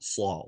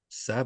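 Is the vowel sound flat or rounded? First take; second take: rounded; flat. First: The vowel is rounded and deep. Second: The vowel is flat with unrounded lips. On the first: The speaker calls it right. "that is a rounded sound" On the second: The speaker calls it wrong. "Not a flat sound"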